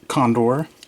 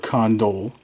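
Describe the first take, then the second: First: The word ends with an R sound. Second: The word ends with an L sound. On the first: The speaker calls it right. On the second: The speaker calls it wrong.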